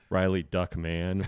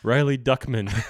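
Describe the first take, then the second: First: The surname sounds like the words duck man. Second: The surname sounds like a Jewish family name. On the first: The speaker calls it right. "because he hunts ducks, calls himself a duckman" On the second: The speaker calls it wrong.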